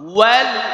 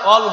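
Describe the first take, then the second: First: The word starts with a rounded-lip w sound. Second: The word starts without a rounded-lip w sound. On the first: The speaker calls it right. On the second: The speaker calls it wrong.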